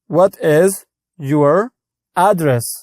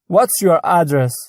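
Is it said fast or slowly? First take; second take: slowly; fast. First: It is said slowly and in full. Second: It is said fast and contracted.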